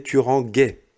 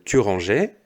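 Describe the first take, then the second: First: Ranguais said with a hard G, not a J sound; wrong form demo. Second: Said in the usual way. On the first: Shown as a demonstration. Teacher showing pupils the forgotten E, ranguais with a hard G. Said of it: "Donc ça ne se dit pas". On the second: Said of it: "Si tu ne mets pas le E".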